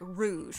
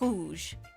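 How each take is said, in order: First: The R is a smooth, English-style sound. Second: The R is a throaty, almost phlegmy sound. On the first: The speaker calls it wrong. "it's not like rouge" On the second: The speaker calls it right. "It's like rouge"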